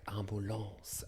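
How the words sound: It is pronounced with French sounds. "in French it's like ambulance"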